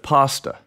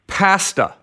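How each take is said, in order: First: It is said with an American vowel. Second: It is said with a Canadian vowel. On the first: "instead of pasta" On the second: "why was it we said pasta"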